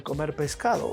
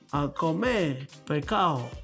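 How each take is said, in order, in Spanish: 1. Se dice con pronunciación estándar completa. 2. Se dice con sonidos reducidos puertorriqueños. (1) "eso lo hablamos nosotros" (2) "un puertorriqueño, ¿cómo lo diría? Diría así"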